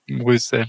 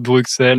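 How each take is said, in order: First: The middle consonant is said as s. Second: The middle consonant is said as ks. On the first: This is how the city's own people say it. The speaker calls it right. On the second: This is how the French tend to say it. The speaker calls it wrong.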